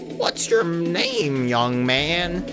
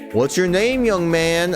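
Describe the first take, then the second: First: It is said in a put-on old woman's voice. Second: It is said in the speaker's normal voice.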